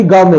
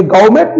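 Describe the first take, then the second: First: गांव में said as one word, "gau-me"; silent final T. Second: गवर्नमेंट said "gau-met", T sounded; wrong pronunciation. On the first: Teacher giving gourmet's correct form, silent final T. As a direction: end गांव में on an open vowel. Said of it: "बल्कि गांव में है". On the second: Teacher showing gourmet done wrong, wrong pronunciation. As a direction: close गवर्नमेंट as "gaumet" with a T. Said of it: "नहीं है". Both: Shown as a demonstration.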